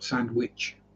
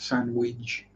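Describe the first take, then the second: First: The word ends with a sharp ch sound. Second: The word ends with a soft j sound. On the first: The speaker calls it wrong. "we don't pronounce it as ch" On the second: The speaker calls it right. "the C H is D G E as we would pronounce it"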